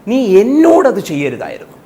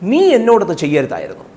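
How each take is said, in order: First: The stress is on എന്നോട്. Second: The stress is on നീ.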